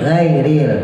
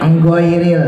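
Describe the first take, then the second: First: The word starts directly with the gh sound. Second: The word starts with an added 'eng' sound. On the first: The speaker calls it right. "Jangan ditambahin eng" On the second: The speaker calls it wrong. "itu penyakit kita juga"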